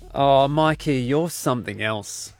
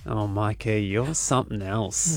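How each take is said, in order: First: It sounds let down and disappointed. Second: It sounds flirty, almost growled.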